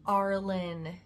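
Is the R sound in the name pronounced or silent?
pronounced. The name is said with an R sound. "I'd have to put on a fake accent"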